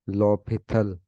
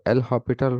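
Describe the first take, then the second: First: No h sound follows the L. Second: An h sound follows the L.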